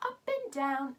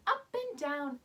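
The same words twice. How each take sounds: The two takes are said the same way.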